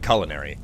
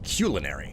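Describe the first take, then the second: First: The word is said the common everyday way. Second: The word is said the older dictionary way. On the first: This is how most people say it today. "Everybody says it culinary" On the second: This is the original dictionary pronunciation. "the original pronunciation is culinary"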